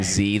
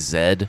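First: The letter is said as zee. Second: The letter is said as zed.

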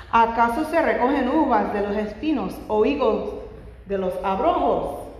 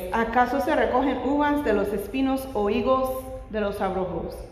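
The two takes are said the same way.

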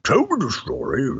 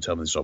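First: It is said in a deep put-on impression voice. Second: It is said in the speaker's ordinary voice.

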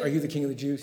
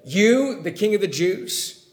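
First: It is asked as a plain, neutral question. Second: It is said with mocking disbelief.

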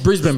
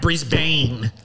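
First: It is said quickly with reduced syllables. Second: Every letter is pronounced carefully and fully. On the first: This is the way locals say it. The speaker calls it right. "Just say it. Quick" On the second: This imitates the way Americans say it. The speaker calls it wrong. "Like you spell it out"

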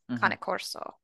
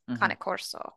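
First: It is said with an Italian pronunciation. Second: It is said with an Italian pronunciation.

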